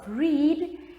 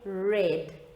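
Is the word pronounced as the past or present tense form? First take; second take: present; past. First: It is pronounced as the present tense form. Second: It is pronounced as the past tense form. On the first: It names the present tense verb. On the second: It names the past tense verb.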